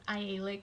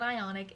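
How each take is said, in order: First: The name is said like 'Ialic', with an l. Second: The name is said like 'Ionic', with an n. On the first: The speaker calls it right. "it's Ialic" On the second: The speaker calls it wrong. "It's not Ionic"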